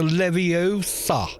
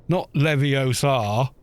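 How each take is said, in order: First: "Leviosa" with a long O, levi-OH-sa; higher, drawn-out OH in "Leviosa"; correct Leviosa. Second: "Leviosa" with a long final AH, levio-SAH; drawn-out SAH ending in "Leviosa"; mistaken Leviosa. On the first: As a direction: say "Leviosa" slowly, leaning on the OH. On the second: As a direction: say "Leviosa" slowly, leaning on the last syllable. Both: Acted. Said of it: "That's the difference".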